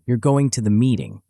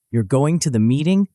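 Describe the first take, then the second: First: "You're going to the meeting?" with pitch falling at the end; "meeting" settled down as a statement. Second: "You're going to the meeting?" with pitch rising on "meeting"; "meeting" lifted up as a question. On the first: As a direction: say it flat as a fact, tune dropping. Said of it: "with falling inflection becomes a statement". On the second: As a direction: ask it, tune climbing at the end. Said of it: "with rising inflection becomes a question". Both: Shown as a demonstration.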